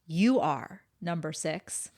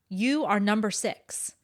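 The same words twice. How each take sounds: First: The stress falls on the word are. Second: The stress falls on the word six. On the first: The listener is number one. "they changed the inflection" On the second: The listener's number is six. "in all the episodes, um, it goes"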